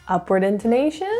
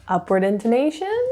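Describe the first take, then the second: Both takes have the same delivery.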